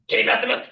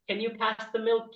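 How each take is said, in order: First: It is said in a gruff, growly voice. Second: It is said in a soft, normal voice. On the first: It is an urgent demand that must be obeyed. "as urgent as it gets, they turn into a literal goblin" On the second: It is a polite, ordinary request. "they have a normal feminine voice"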